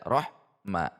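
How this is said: There is a pause between the two syllables. "Contoh yang jeda"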